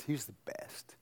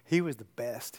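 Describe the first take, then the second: First: Unvoiced, breathy whisper. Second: Said in the usual way. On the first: Real, not acted. Preacher remembering his dad, in a whisper. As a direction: hush it like a fond secret.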